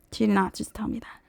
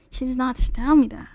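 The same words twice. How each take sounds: First: Whispered in disbelief, fast; shocked whisper. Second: Said in the usual way. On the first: Real, not acted. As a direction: breathe it out like you can't believe it. Disbelief at dealer's lowball offer.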